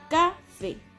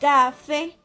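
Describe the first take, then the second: First: The stress is on the first syllable. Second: The stress is on the last syllable. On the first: The speaker calls it wrong. "si el acento estuviera en esta sílaba ... es una pronunciación incorrecta" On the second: The speaker calls it right. "en la última sílaba, que es fe"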